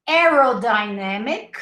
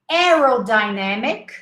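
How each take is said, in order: No difference in how they are said.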